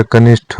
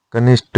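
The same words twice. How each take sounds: First: कनिष्ठ with breathy aspirated th; correct form. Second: कनिष्ठ with unaspirated t; incorrect form. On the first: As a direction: puff the final ठ of कनिष्ठ. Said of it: "होता है". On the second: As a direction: say कनिष्ठ as "kanisht". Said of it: "नहीं होता". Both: Shown as a demonstration.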